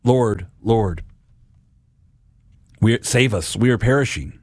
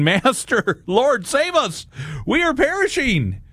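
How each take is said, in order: First: Subdued plea with heavy pauses; understated cry out. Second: High, drawn-out mock cry for help; panicked disciples. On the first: Acted. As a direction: cry out to the Lord, but held back. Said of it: "we cry out". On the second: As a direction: plead in a hammed-up panic, pitch far up. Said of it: "We would be like the disciples saying".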